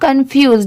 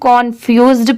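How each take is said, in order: First: The first syllable sounds like 'kun'. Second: The first syllable sounds like 'kon'. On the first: The speaker calls it right. "यहाँ पर कन की sound आएगी" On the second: The speaker calls it wrong. "इसका मतलब ये नहीं कि इसे हम confused पढ़े"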